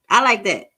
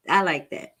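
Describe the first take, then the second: First: Enthusiastic approval. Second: Said in the usual way. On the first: Real, not acted.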